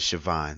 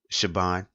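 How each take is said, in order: First: The middle consonant is a V sound. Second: The middle consonant is a B sound. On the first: "like with the V sound" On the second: "some people pronounce it with the the B sound"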